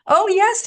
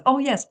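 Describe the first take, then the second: First: High, loud hammed-up pious "Oh, yes"; mock pious voice. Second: Mock pious voice. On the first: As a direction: parody a smug believer, much higher and louder. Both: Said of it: "I don't speak like that".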